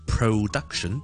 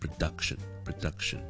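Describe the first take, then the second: First: The stress is on the first syllable. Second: The stress is on the second syllable. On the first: The speaker calls it wrong. "我哋就唔会读成production" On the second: The speaker calls it right. "because duck 先系重音，production 前面嗰个咧我只会轻读成咧"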